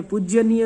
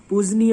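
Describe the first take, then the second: First: पूज्यनीय with an added 'y' after the j; wrong form. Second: पूजनीय with a simple j, no 'y' after it; correct form. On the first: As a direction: say पूज्यनीय as pooj-ya-nee-ya. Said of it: "पूज्यनीय नहीं होता है". (पूज्यनीय में 'ज्य' बोलकर गलत रूप) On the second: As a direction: say पूजनीय as pooj-nee-ya. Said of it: "पूजनीय होता है". (पूजनीय में सिर्फ़ 'ज', सही उच्चारण) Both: Shown as a demonstration.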